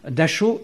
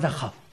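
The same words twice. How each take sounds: First: It has a soft sh and ends in o. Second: It has a harsh kh and ends in ow. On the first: Saying it this way was a form of resistance. "en disant Dachau" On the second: This is the way that was refused. "et pas Dachau"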